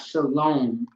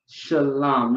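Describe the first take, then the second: First: The second vowel is an O sound. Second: The second vowel is not an O sound. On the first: The speaker calls it wrong. "shalom with an O" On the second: The speaker calls it right. "not shalom with an O"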